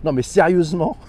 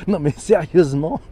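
First: Said in the usual way. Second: Laughing through the words. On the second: Real, not acted. Repeats the same phrase with a laugh.

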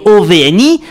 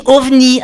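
First: O V N I as four separate letters; spelled letter by letter. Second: Ovni as one word, ov-ni in two syllables. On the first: Columnist shows listeners the wrong way, spelling O V N I letter by letter. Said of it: "qu'on ne le prononce pas comme". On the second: Columnist shows listeners the right way, ovni as one word. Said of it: "on dit ovni avec deux syllabes". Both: Shown as a demonstration.

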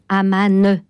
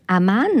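First: Amman with an added final E, "a-ma-neu"; old spelling pronunciation. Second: Amman ending cleanly on its N; mute E dropped. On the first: Quoting old dictionaries, Amman with the final E sounded. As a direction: sound an extra E after the N of Amman. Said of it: "il a été raisonnable d'enlever ce E muet". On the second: Naming Jordan's capital, Amman without a final E. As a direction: say Amman in two syllables, no E after it. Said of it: "de garder Amman". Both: Shown as a demonstration.

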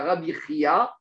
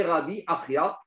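First: Rabbi Achia said as "Rabbi Chiya", no leading A; nom bien distinct. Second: Rabbi Achia with a clear leading A before the guttural ch; nom bien distinct. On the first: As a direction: say the first "Rabbi Achia" as "Chi-ya", starting on the guttural ch. (« Rabbi Achia » prononcé « Rabbi Hiya », sans A initial) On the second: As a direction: sound out "Rabbi Achia" as "A-chi-ya". (« Rabbi Achia » avec le A initial bien détaché) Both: Shown as a demonstration. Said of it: "c'est deux choses différentes".

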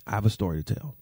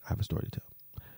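First: Said in the usual way. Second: Breathy whispered tease. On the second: Real, not acted. Vlogger whispering to viewers about a secret story.

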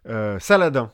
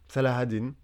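First: Said in the usual way. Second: Salah ad-Din prononcé à l'arabe, en trois syllabes détachées; prononciation arabe. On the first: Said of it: "Je vais dire Saladin pour la suite". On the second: Shown as a demonstration. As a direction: dire Salah ad-Din comme en arabe, pas Saladin à la française. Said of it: "excuse mon accent". (Salah ad-Din avec un accent arabe appliqué)

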